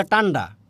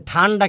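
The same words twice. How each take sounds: First: টান্ডা with hard unaspirated ট; aspiration dropped. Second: Said in the usual way. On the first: Retold or imitated. Teacher quoting Netrokona speech, টান্ডা with t for th. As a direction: start টান্ডা on t with no breath. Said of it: "ঠান্ডা কি বলে?". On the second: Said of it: "কি বলে?".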